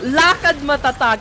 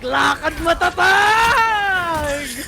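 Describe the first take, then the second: First: It is said calmly, without force. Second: It is said forcefully, from the chest.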